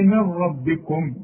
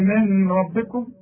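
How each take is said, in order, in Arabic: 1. النون تندمج في الراء بدون غنة. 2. النون تبقى مع غنة قبل الراء. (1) "ما تغنش. تقول لي من ربكم" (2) "مش تقول لي من ربكم"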